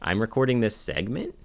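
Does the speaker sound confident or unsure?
unsure. It is said in a hesitant, unsure way.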